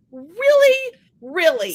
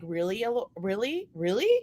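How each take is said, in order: First: Much higher and louder mock indignation; mock outrage. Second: Much softer, muttered disbelief; deadpan quiet disbelief. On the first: Ignored by her own dog, hammed-up indignant cry. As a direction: throw it out in playful disbelief. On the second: Retold or imitated. Owner watching her dog choose her husband, quiet disbelief. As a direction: say it low under your breath, unimpressed. Mom hurt that dog picks John.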